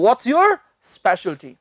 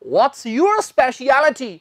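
First: The last word is said short and clipped. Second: The last word is stretched out a little longer. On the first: The speaker calls it wrong. "ना कि" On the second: The speaker calls it right. "थोड़ा लमका के बोलना है"

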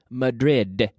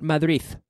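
First: The final d is made with the tongue inside. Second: The final d is made with the tongue out. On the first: The speaker calls it right. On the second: The speaker calls it wrong.

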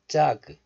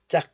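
First: The final G sound is fully released. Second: The final G sound is cut off unreleased. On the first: The speaker calls it wrong. "Not 짝" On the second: The speaker calls it right. "you don't release the G sound fully. Close the syllable like a glottal stop"

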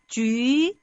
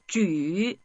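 First: The syllable is said with a rising pitch. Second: The syllable is said with a low dipping pitch. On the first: "이성으로 한번 해보겠습니다" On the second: "삼성으로 쉬"

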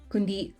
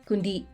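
The two takes are said the same way.

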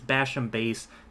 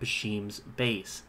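First: Basham is said with no S sound. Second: Basham is said with an S sound added. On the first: The speaker calls it right. "There is no S" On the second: The speaker calls it wrong. "I don't know why I always call it Basham's"

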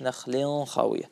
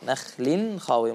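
First: The n sound before kh is hidden, not clear. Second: The n sound before kh is pronounced clearly. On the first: The speaker calls it wrong. "مش" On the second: The speaker calls it right. "عندي إظهار"

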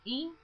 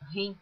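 First: The word starts directly with a vowel. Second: The word starts with a breathy h sound. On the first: It is read as written in Portuguese. The speaker calls it right. "Eu pronuncio in" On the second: It is read as if it were English. The speaker calls it wrong. "pronuncia rim, como se estivesse falando em inglês"

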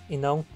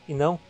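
The two takes are said the same way.

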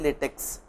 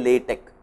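First: The word ends with a 'ks' sound. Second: The word ends with a 'k' sound. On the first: The speaker calls it wrong. "Please don't say LaTeX" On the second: The speaker calls it right. "I request people to say LaTeX"

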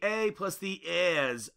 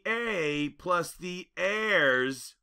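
First: It is said in a Boston accent. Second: It is said in a neutral accent.

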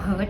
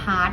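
First: The vowel sounds like the one in hurt. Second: The vowel sounds like the one in hart. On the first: The speaker calls it wrong. "ไม่ได้อ่านว่า" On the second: The speaker calls it right. "อ่านว่า"

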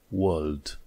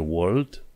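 First: The r sound is silent. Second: The r sound is pronounced. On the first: The speaker calls it right. "e world" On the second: The speaker calls it wrong. "World nu e world"

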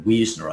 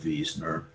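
First: The name is pronounced the American English way. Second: The name is pronounced in a non-American way.

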